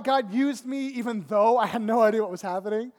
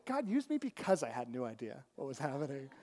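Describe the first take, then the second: First: "even though" leaned on in a louder sentence; loud, emphatic "even though"; stress on EVEN THOUGH. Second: "because" lifted, then the rest dropped low; emphatic "because", then a low, soft finish; stress on BECAUSE. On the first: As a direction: punch "even though" as the concession. Contrasts "even though" with "because. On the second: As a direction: land on "because" as the correction. Corrects "even though" to "because. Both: Real, not acted.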